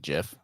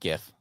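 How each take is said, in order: First: The word starts with a j sound. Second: The word starts with a hard g sound. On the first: "apparently it's supposed to be GIF, like like the peanut butter" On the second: "I like GIF"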